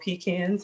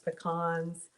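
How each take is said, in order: First: It is pronounced in a Southern US way. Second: It is pronounced in a general, non-Southern way.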